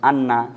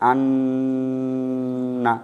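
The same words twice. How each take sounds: First: The nasal sound is short and plain. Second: The nasal sound is held long through the nose. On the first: "একটা আমি সিম্পল পড়লাম" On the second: "আওয়াজকে চেপেছি"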